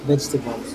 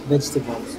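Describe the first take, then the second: First: It is said in a British English accent. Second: The same.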